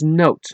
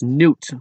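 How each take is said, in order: First: The vowel sounds like the oa in boat. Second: The vowel sounds like the oo in boot. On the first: The speaker calls it right. "it should be pronounced as note, like a music note" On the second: The speaker calls it wrong. "so many English people speaking countries pronounce my name as Newt"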